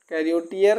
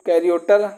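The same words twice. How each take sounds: First: कैरियोटियर with a clear "ee" after the t; full "-tiyar" ending. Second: कैरियोटर ending in a short "-tar"; two-syllable ending reduced. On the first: Teacher has students memorise कैरियोटियर with full "tee-yar" ending. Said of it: "कैरियोटियर, इसे याद कर लो". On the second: Teacher shows students the spoken form, कैरियोटर ending in short "-tar". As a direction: say कैरियोटर with no "ee" after the t. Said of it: "कैरियोटर भाई वो बोला ही जाएगा". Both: Shown as a demonstration.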